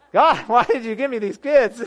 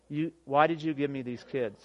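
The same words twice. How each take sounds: First: High, loud mock plea through laughter; comically despairing, laughing wail; laughing exasperation. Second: Said in the usual way. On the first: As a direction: cry it out to heaven, cracking up. Joking second take, laughing.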